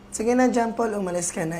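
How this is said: It is said in a falsely sweet, insincere voice. "Rinig na rinig sa boses mo na sobrang plastic mo"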